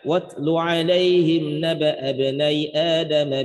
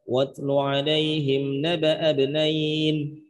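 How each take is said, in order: First: The reading runs on without an added n sound. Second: The reading stops on the word with an added n. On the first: The verse is read connected as written in the text. "lanjut, maka terbacanya" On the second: A stop made only to test the reader. "kalau misalkan kata penguji berhenti di ibnai, ya gimana cara berhentinya?"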